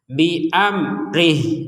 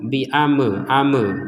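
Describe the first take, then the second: First: The m stays closed with no added vowel. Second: An extra e vowel echoes after the m. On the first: The speaker calls it right. "huruf mim ini mati jangan di divokalkan menjadi e" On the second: The speaker calls it wrong. "kan ada e itu di sini, nggak ada huruf e di sini"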